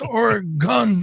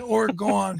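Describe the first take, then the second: First: The last syllable sounds like 'gun'. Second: The last syllable sounds like 'gone'. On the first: "like gun" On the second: "I say gone"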